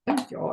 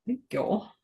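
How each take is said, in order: First: Southern drawl again, pitched up higher; weird accent. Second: A put-on Southern drawl, higher and soft; weird accent. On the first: Pretend. Crafter repeating her thanks in a mock Southern accent. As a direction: draw out a joking Southern thanks. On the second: Crafter thanking viewers in a put-on Southern accent. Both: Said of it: "that weird accent came from".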